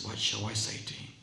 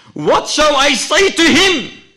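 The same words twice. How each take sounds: First: Scared, feeble murmur. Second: Loud, very high desperate cry. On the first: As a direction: let it out faintly, as if dying. Scared dying man's last words. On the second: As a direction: shout the question at full voice. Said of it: "His brother cries out". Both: Acted.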